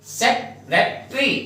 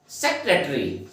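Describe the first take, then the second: First: सेक्रेटरी drawn out and higher, syllables mushed as sek-e-tri; mock the common wrong सेक्रेटरी; wrong pronunciation. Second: सेक्रेटरी said with all syllables, sek-re-ta-ri; correct pronunciation. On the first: Teacher showing students the wrong way, drawn out. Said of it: "सेक्रेटरी अगर आप इसको बोलोगे". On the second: Teacher giving students the right way, carefully. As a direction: model the full सेक्रेटरी. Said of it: "सेक्रेटरी अगर आप इसको pronounce करोगे". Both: Shown as a demonstration.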